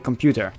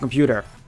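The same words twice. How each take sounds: First: The word has a Dutch pronunciation. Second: The word has an English pronunciation.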